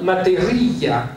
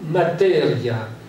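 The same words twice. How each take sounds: First: The stress falls on the 'ri' syllable. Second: The stress falls before the 'ri' syllable. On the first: It would mean maternity. "si on met l'accent tonique sur le i" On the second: It means matter. "ça c'est la manière dont les Italiens le prononcent"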